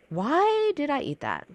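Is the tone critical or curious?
curious. It sounds gently curious and open.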